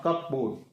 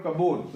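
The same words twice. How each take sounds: First: Cupboard split as "cup-board", p pronounced; sounded P. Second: Cupboard said as "kubbod", no p sound; silent P. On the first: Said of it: "not cupboard". (cupboard में P बोलकर) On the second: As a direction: drop the P in cupboard. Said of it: "the silent letter is P". (cupboard में P silent) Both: Shown as a demonstration.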